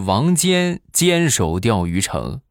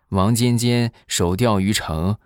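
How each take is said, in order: First: The break comes before the second 'jian'. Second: The break comes after the second 'jian'. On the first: Wang Jian firmly defended the city. The speaker calls it right. "人家是王尖坚守钓鱼城" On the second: The name is read as Wang Jianjian. The speaker calls it wrong. "你这断句断错了"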